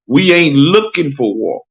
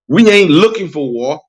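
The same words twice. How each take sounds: First: It is said at a slower pace. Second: It is said at a faster pace.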